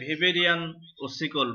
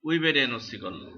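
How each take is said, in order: First: The first word begins with a V sound. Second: The first word begins with a W sound. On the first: This is how German speakers say it. "German দেশের লোকরা এটাকে বলা হয় ভেবেরিয়ান অসিকল" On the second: This is how local speakers say it. "আমরা বলি উইবেরিয়ান অসিকল"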